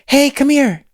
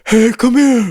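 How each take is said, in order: First: The whisper sounds bright and twangy. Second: The whisper sounds dark and strained. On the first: The speaker calls it right. "you tend to add more brightness" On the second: The speaker calls it wrong. "As opposed to"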